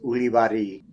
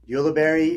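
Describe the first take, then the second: First: The name is pronounced the original Basque way. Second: The name is pronounced the local American way. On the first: This is the name's true original form. "the accurate pronunciation" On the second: This is how locals know the name. "what people recognize it as in Utah"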